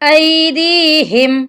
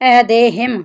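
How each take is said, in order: First: The middle vowel sounds like 'ee'. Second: The middle vowel sounds like 'eh'. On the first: The speaker calls it right. "इसकी सही अदायगी" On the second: The speaker calls it wrong. "अक्सर लोग गलत पढ़ देते हैं"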